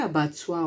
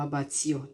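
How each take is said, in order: First: "abattoir" ending in "-twah"; trying a pronunciation. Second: "abattoir" ending in "-tee-oh"; alternative pronunciation. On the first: Unsure vlogger tries out a word, "abattoir" ending "-twah". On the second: Unsure vlogger offers another reading, "abattoir" ending "-tee-oh". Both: Shown as a demonstration. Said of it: "Or is it abattoir or abattoir".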